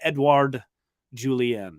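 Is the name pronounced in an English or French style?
English. The name is said with English-style sounds. The speaker calls it wrong. "my default is kind of"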